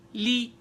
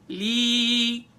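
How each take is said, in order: First: The vowel is short. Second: The vowel is long and extended. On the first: "That's called short vowel" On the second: "if I extend"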